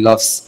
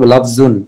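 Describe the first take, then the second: First: The word ends on a bare consonant. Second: The word ends with an added 'un' syllable. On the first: "কোরআন শরীফের আয়াতগুলো যেভাবে পড়া হয় আমরা ওইভাবে পড়ি" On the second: "মূলত লফজুন জদের উপর জর উপরে দুই পেশ দিয়ে হবে"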